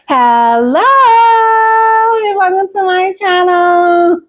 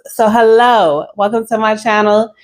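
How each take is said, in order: First: It is said in a put-on voice. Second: It is said in her natural voice.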